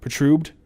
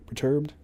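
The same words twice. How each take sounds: First: "Perturbed" garbled as puh-TROOBED, questioning; "Perturbed" mispronounced as puh-TROOBED, rising as a question; unsure pronunciation. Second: "Perturbed" softly as puh-TURBED, questioning; "Perturbed" as puh-TURBED, softer, rising as a question; checking pronunciation. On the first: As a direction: try "Perturbed" with the r moved forward, pruh-TRUBED. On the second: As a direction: say "Perturbed" quietly with TURB in the middle. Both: Real, not acted. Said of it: "is that how you pronounce that?".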